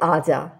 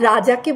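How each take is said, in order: First: The word begins with a vowel, no r. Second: The word begins with an r sound.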